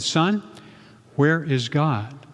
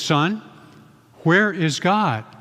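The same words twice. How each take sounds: First: It is said at normal loudness. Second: It is said with a raised voice.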